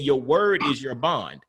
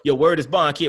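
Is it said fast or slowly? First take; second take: slowly; fast. First: It is said slowly and clearly. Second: It is said quickly, New York style.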